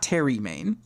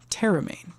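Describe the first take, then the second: First: The name sounds like 'Terry Main'. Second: The name sounds like 'Terramain'. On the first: The speaker calls it wrong. "Not Terry Main" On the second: The speaker calls it right. "I think it's Terramain"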